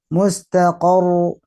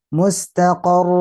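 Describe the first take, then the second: Both takes have the same delivery.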